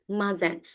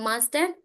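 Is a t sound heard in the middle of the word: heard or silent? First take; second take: silent; heard. First: The middle t sound is dropped. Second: The middle t sound is pronounced. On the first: The speaker calls it right. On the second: The speaker calls it wrong.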